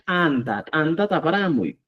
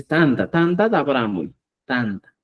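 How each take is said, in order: First: Anta as "tanta" with a popped initial t; pronunciación cusqueña. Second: Tanta with a plain, unforced t; pronunciación simple chanca. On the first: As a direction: hit a forceful t to start anta. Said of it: "cusqueño decimos". (anta cusqueño, "tanta" con t explosiva) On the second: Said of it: "Es simple la pronunciación". (tanta chanca, con t simple) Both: Shown as a demonstration.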